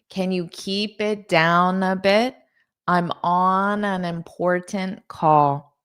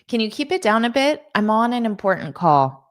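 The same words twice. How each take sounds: First: The sentence is spoken at a slower pace. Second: The sentence is spoken at a fast pace.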